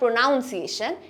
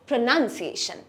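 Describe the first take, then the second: First: The second syllable sounds like 'noun'. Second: The second syllable sounds like 'nun'. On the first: The speaker calls it wrong. "this is not pronunciation" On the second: The speaker calls it right. "it's pronunciation"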